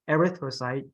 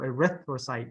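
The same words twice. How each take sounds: First: The stress falls on another syllable. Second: The stress falls on the second syllable. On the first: The speaker calls it wrong. "not erythrocyte" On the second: The speaker calls it right. "so erythrocyte"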